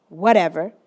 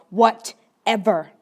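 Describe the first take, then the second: First: Low, curt brush-off; dismissive reply. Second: Slow, drawn-out hostile brush-off; more aggressive reply. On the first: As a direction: shrug the greeting off. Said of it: "He replies". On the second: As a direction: lean on it with irritation. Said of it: "he more aggressively replies". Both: Retold or imitated.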